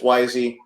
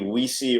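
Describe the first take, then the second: First: Two syllables, the first vowel like 'eye'. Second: Two syllables, the first vowel like 'ee'. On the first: This is the real name. The speaker calls it right. "it's it's Wisey" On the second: This is how the spelling looks. The speaker calls it wrong. "the way it looks is either it should be Weesey"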